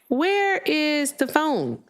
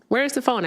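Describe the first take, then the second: First: WHERE IS THE PHONE high and very slow; drawn-out searching. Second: "Where's the phone" high, at ordinary pace; retold searching. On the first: Retold or imitated. Host retells hunting for her phone, drawn-out high wondering. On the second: Host retells hunting for her phone, quicker high questioning. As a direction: ask it higher, without stretching the words.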